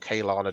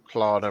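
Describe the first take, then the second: First: The name begins with a 'Kay' sound. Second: The name begins with a 'Klar' sound. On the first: The speaker calls it wrong. "Wrong. It's very wrong" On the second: The speaker calls it right. "depending on how you pronounce it"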